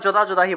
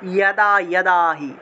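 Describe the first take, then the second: First: The words begin with a j sound. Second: The words begin with a y sound. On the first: The speaker calls it wrong. "এটা যারা জানে না তারা যদা যদাহি বলে" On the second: The speaker calls it right. "অন্তস্থ জয়ের সংস্কৃত উচ্চারণ হলো ইয়"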